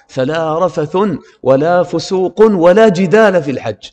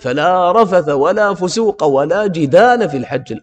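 First: Rafath and fusuq end in the nunated ending un. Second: Rafath and fusuq end in the short vowel a. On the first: Only a single instance is negated. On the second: Every kind of indecency and sin is negated.

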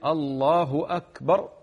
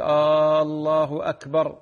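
First: The opening vowel of Allah is kept short. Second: The opening vowel of Allah is drawn out long. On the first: It states that God is greatest. The speaker calls it right. "التكبير الله أكبر" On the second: It sounds like a question. The speaker calls it wrong. "هذا غلط يا أخواني، أنا كأنك الآن تستفهم"

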